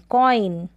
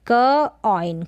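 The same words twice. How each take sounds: First: कॉइन in one piece, falling; कॉइन as one syllable with "oy"; blended word. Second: क ऑइन in two pieces; sounded out. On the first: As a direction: join the sounds into कॉइन. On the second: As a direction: pause between क and ऑइन. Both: Shown as a demonstration. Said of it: "ऑय करके pronunciation करते हैं".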